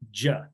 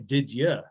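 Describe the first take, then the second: First: Both words merge into one short syllable. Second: The second word is reduced to a weak 'ya'. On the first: "They just say" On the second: "They don't even say"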